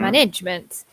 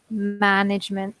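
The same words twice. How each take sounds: First: The stress is on the middle syllable. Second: The stress is on the final syllable. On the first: The speaker calls it wrong. "students tend to put the stress in the middle here" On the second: The speaker calls it right. "with a strong stress at the end"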